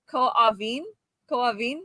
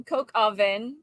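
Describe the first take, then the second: First: "coq au vin" as "co-oh-veen"; own attempt. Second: American "coq au vin", vin with sounded N; most American. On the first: Guest offers own guess, "coq au vin" as co-oh-veen. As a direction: soften "coq au vin", no middle K. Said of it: "I would have said". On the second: Guest demonstrates French dish, most American pronunciation. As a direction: read "coq au vin" as coke-oh-vin. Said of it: "With the most American". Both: Shown as a demonstration.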